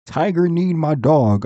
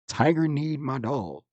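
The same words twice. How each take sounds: First: Tiger need my dog said again much louder, stressing Tiger; emphatic repeat. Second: Said in the usual way. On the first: Real, not acted. Friend ranting about Dio kneeing his dog, louder emphatic repeat. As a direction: repeat it louder to drive the point home.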